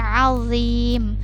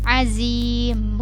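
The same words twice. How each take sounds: First: The middle consonant is made without any hiss. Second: The middle consonant is a hissing z sound. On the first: The speaker calls it right. "tapi ini azim, azim, tidak ada desisnya" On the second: The speaker calls it wrong. "jangan dibacanya seperti huruf zai, azim, bukan seperti itu"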